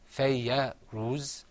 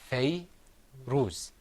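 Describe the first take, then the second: First: A short a vowel follows the y sound. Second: No vowel follows the y sound. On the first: The speaker calls it wrong. "It's not fayya ruz" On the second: The speaker calls it right. "It's fay ruz. So when there's no sound after the letter"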